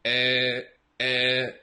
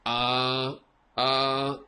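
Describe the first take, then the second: First: Eh said as a short open filler vowel; Spanish eh filler. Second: Uh as a neutral schwa filler; English uh filler. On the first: Retold or imitated. Teacher mimicking Spanish speakers' eh filler. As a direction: imitate a Spanish speaker's eh hesitation. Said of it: "they say". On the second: Shown as a demonstration. Teacher modelling English hesitation instead of eh. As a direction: hesitate with a relaxed uh.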